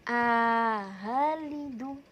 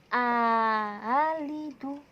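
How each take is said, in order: The two takes are said the same way.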